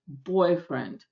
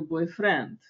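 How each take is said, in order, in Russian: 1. Ударение на первом слоге. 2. Ударение на последнем слоге. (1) "по-английски ударение должно быть в начале" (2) "переиначиваем с ударением в конце"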